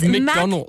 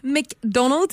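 First: The first syllable sounds like 'mac'. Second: The first syllable sounds like 'mick'. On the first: The speaker calls it right. "That's why you say Macca's, not Mickers" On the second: The speaker calls it wrong. "It's not McDonald's"

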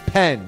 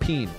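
First: The vowel is a short 'e' sound. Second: The vowel is a long 'ee' sound. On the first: The speaker calls it right. "Remember, it's pen" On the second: The speaker calls it wrong. "not peen"

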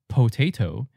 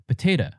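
First: No syllable is reduced; every vowel sounds full. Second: Both the first and last syllables are reduced. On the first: "We don't say potato" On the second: "Some people will even de-stress the last syllable"

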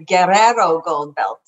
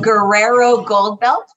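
First: The R sounds are rolled as in Spanish. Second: The R sounds are said in English style. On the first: "for those of you who speak Spanish, they've taught me to roll my R's" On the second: "for those of you who are anglicized"

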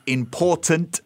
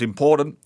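First: The middle t is clearly pronounced. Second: The middle t is dropped for a glottal stop. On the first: "the word important" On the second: "becomes important"

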